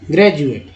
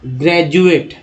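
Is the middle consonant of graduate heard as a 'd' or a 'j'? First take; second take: j; d. First: The middle consonant is a 'j' sound. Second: The middle consonant is a plain 'd' sound. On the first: The speaker calls it right. "ज का उच्चारण यहाँ पर सामने आया" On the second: The speaker calls it wrong. "अब जैसे ड और द लगा पढ़ते हैं"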